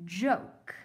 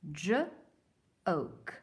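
First: Said in the usual way. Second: Stretched sound by sound, J-oke. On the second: Shown as a demonstration. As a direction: sound out J-oke slowly, onset then vowel. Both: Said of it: "Help me read these".

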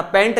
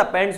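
First: पैंट ending on a bare T, no S; the wrong form पैंट, no S sound at the end; singular without S. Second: पैंट्स with an S after the T; corrected form पैंट्स, ending in TS; plural final S. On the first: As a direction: say पैंट cut off before any final S. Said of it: "पैंट नहीं होता". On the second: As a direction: sound the closing S on पैंट्स. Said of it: "पैंट्स होता". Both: Shown as a demonstration.

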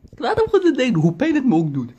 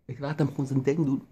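First: "Ik laat hem gewoon zijn ding doen" squeezed out high and loud; choked falsetto, pretending to stay calm; high strained squeal. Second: Said in the usual way. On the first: Shown as a demonstration. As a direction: force the words out in a high, tight squeal of suppressed rage. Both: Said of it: "repeated differently".

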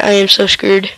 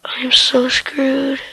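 First: Said in the usual way. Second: Slow frightened whisper, no voice. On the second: Real, not acted. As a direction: breathe it out in dread. Whispered in danger.

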